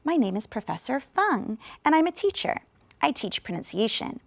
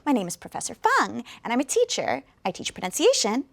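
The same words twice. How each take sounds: First: It is spoken slowly with key words clear. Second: It is spoken very quickly and run together. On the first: "if you listen to me pronounce this" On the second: "if I speak this very, very quickly"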